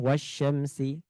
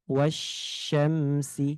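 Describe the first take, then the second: First: The sh sound is rushed quickly. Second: The sh sound is drawn out slowly. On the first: The speaker calls it wrong. "Tidak boleh wasyamsi. Terlalu cepat" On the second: The speaker calls it right. "Sehingga diberikan dulu sifatnya"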